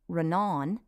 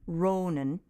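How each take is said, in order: First: Only the second vowel is long. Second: Only the first vowel is long. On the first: "if it were only on the second syllable" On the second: "if it were only on the first syllable"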